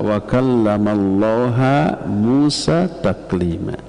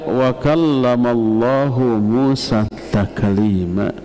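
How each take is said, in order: First: The name Allah ends with an 'a' vowel. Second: The name Allah ends with a 'u' vowel. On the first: Moses is the one who spoke to God. The speaker calls it wrong. "Allahnya dibaca ha, jadi objek" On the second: God is the one who spoke. The speaker calls it right. "maka dibaca wa kallamallahu"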